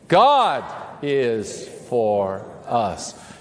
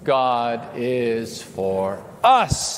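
First: The stress falls on the word 'God'. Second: The stress falls on the word 'us'. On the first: "emphasize a different word each time, starting with the first word" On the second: "emphasize a different word each time"

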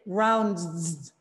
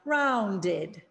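First: The word ends without an extra syllable. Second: The word ends with an extra syllable. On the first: The speaker calls it wrong. "We can't say rounds, rounds, right? We can't match that D with the D" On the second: The speaker calls it right. "We need to add a vowel sound, that schwa sound"

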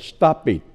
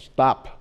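First: The ending is an added extra syllable. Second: The ending is a plain t sound. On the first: The speaker calls it wrong. "không đọc là stop it" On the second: The speaker calls it right. "mà đọc là stop, vì nó đứng sau cái chữ P"

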